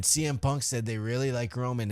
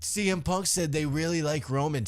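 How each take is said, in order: First: Said in the usual way. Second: Mocking parrot. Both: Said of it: "all these fucking people went".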